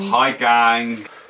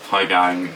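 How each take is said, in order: First: It is said enthusiastically, with more energy. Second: It is said flatly, with little energy.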